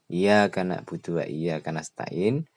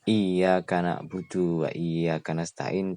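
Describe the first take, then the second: First: The y sound in iyyaka is short. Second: The y sound in iyyaka is held long. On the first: The speaker calls it wrong. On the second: The speaker calls it right.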